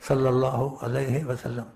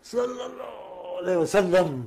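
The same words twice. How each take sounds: First: Said in the usual way. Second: Sleepy murmur. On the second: Shown as a demonstration. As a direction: let it slip out while turning over in sleep. (نیند میں بڑبڑاتے ہوئے) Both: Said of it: "Karot لو، تو منہ سے نکلے".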